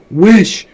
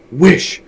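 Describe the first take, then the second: First: Wish! even louder and higher, insistent; repeated command, louder. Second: A loud, firm command; strong cry. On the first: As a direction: hammer the word Wish! home harder. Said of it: "repeated his wife". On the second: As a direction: bark the word Wish! as an order. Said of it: "she cried in a strong voice". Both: A narrator's reading.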